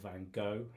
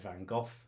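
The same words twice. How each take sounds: First: The name has an American pronunciation. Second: The name has a British pronunciation. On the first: "if you're in the U S" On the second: "if you're in the U K"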